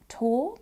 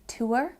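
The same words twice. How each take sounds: First: "tour" as "taw"; one long vowel in "tour", no r; speaker's own accent. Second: "tour" as "too-er"; another accent. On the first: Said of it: "in my accent". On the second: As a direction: glide "tour" from oo to er. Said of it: "in another accent might sound more like". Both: Shown as a demonstration.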